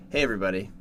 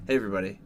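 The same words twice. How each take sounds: The two takes are said the same way.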